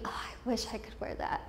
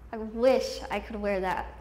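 First: Hushed, almost whispered longing; wistful private thought. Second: Said in the usual way. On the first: Retold or imitated. Girl watching other girls' clothes at assembly, hushed and wistful. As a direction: breathe it out very softly, as if to yourself. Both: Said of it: "watching certain girls and thinking".

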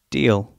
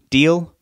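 First: Deal, settled with a falling pitch; agreeing. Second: Deal? with a rising pitch, higher and louder; questioning. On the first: Rob accepting her deal, Deal, said with a falling pitch. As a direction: close it flat, Deal, falling. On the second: Sue offering Rob a deal, Deal? asked with a rise. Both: Acted.

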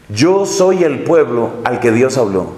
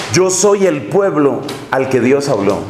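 Both takes have the same delivery.

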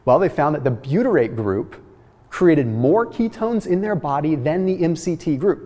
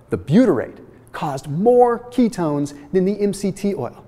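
First: Said in the usual way. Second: Slowly, with MORE punched high; slow emphatic repeat. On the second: Shown as a demonstration. Presenter repeating the study's surprising finding to viewers, slowly and emphatically. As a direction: say it again slowly, spacing out the phrases for emphasis. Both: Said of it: "Let me say that again slowly".

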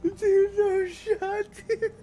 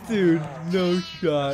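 First: Very high, squeaky incredulity; laughing disbelief. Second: Slow, stretched-out disbelief; disbelieving. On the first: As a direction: say it through helpless laughter. Laughing disbelief after chase. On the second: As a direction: draw it out slowly, incredulous. Disbelief after the chase. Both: Real, not acted.

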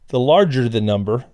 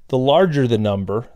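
The two takes are said the same way.

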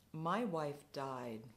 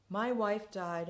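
First: Slow, subdued admission; mildly voiced grieving drunk; quiet despair. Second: Louder, higher cry of grief; anguished despair. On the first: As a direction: let it fall out slowly, quietly. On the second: Retold or imitated. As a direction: repeat it as the grief breaks through. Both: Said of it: "a spasm of despair".

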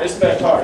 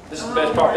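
First: Building hype, a bit louder; excited. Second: Said in the usual way. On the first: Shown as a demonstration. Speaker hyping the crowd for the exercise, louder. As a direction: pump the room up. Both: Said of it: "repeated louder".

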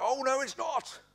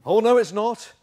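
First: Strained high mock yell; mock-outraged denial at the top of the voice; escalating pantomime shout. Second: Loud panto denial, pitched high; hammed-up projected contradiction; pantomime retort. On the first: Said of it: "they get louder and louder". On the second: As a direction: throw it back louder, panto style. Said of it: "it's almost pantomime".

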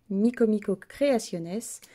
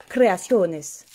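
First: Said in the usual way. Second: "Creaciones" said the Spanish way, with a long o; Spanish accent. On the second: Shown as a demonstration. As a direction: roll out "Creaciones" like a Spanish speaker. ("Creaciones" avec l'accent espagnol) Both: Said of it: "On va le faire avec l'accent".

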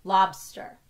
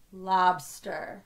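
First: Said in the usual way. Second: "Lobster" stretched, syllables still joined; slightly slower. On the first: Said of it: "saying the word normally". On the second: Shown as a demonstration. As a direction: say "Lobster" slowly to feel both syllables. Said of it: "say it a little slower".

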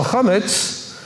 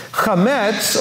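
First: "chametz" as KHAH-muts, stress on the first syllable; alternative pronunciation. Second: "Chametz" as khuh-METS, stress on the second syllable; guttural kh, short first vowel, full METS in "Chametz"; chametz pronunciation. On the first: Teacher offering the alternative form, "chametz" as KHAH-muts. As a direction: open KHAH, weakened second syllable in "chametz". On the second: Teacher offering first of two forms, "Chametz" as khuh-METS. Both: Shown as a demonstration. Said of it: "depending on how you pronounce the vowel".

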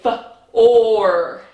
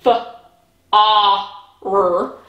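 First: Short F, then OR as one long sound; blended bossy-R sound. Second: F, A, R as three separate sounds, short "ah" and then "rr"; separate letter sounds. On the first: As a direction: join the O and R into a held, louder "or". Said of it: "our R makes our O say". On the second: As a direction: break it into "f", "a", "r" with clear gaps. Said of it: "So instead of saying". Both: Shown as a demonstration.

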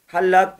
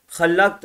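First: "Hallak" with a soft, breathy Arabic h (ح), meaning barber. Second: "Hallak" with a rough, rasping kh (خ), meaning creator. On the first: Teacher shows students the barber word with soft h. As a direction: breathe the h of "Hallak" softly from the throat. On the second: Teacher contrasts creator word with rasping kh. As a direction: scrape the h of "Hallak" hard at the back of the throat. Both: Shown as a demonstration. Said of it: "bir harfin telaffuzu çok önemli".

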